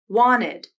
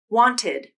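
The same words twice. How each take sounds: First: The T is dropped, leaving only the N. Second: The T is clearly pronounced after the N. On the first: "first I'll pronounce them with a nasal flap" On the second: "and then without a nasal flap"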